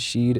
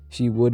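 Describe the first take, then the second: First: The words are contracted into one syllable. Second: Both words are said in full.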